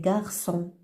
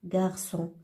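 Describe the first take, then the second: No difference in how they are said.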